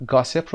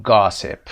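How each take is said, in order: First: Said in the usual way. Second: "گاسپ" with its first vowel stretched long; "گاسپ" said with a long, dragged first syllable; wrongly drawn-out vowel. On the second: Shown as a demonstration.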